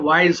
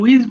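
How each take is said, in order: First: The vowel sounds like 'eye'. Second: The vowel sounds like 'ee'. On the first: The speaker calls it right. "এটা ওয়াইজ হবে" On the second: The speaker calls it wrong. "একজন একটা উচ্চারণ ভুল বলেছো, এটা উইজ বলে ফেলেছো"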